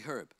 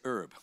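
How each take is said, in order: First: The word begins with an audible H sound. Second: The word begins without any H sound. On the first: This is how it is said in Australia. "In Australia we say herb. We actually pronounce the H" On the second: This is how it is said locally. "But over here we say herb"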